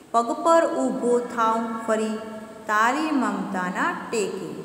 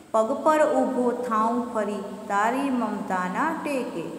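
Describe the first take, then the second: The two takes are said the same way.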